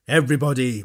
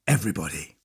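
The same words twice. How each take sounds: First: Said in the usual way. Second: Much lower and softer, dreamy; quiet repeat. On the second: A narrator's reading. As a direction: murmur it to yourself softly.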